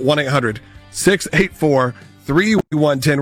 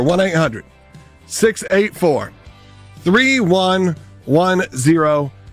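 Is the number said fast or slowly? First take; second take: fast; slowly. First: The number is said at normal speed. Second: The number is said slowly.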